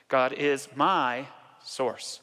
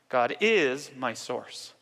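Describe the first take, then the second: First: The word my carries the emphasis. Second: The word is carries the emphasis.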